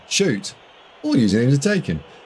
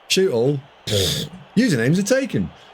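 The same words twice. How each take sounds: First: There is a pause after 'shoot'. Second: There is a pause after 'all'.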